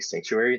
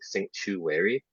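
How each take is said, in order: First: The word is said smoothly as one unit. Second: The word is broken into separate syllables. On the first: "they don't really say sanctuary" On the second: "Why does he break it down?"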